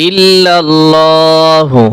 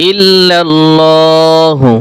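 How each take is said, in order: The two takes are said the same way.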